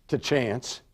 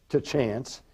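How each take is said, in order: No difference in how they are said.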